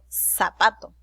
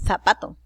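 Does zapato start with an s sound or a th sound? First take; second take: s sound; th sound. First: The first sound is a hissing s sound. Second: The first sound is a lisped th sound. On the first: "suena como una S" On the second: "no digo zapato"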